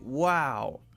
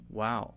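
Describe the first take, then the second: First: It sounds really interested and enthusiastic. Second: It sounds flat, neutral and fairly quick.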